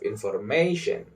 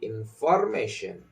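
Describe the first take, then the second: First: The stress falls on the standard English syllable. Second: The stress falls on a Spanish-influenced syllable. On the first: The speaker calls it right. "instead of information" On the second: The speaker calls it wrong. "a Spanish speaker might say information"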